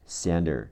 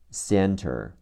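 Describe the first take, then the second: First: The t sound is changed in casual speech. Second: The t sound is pronounced clearly.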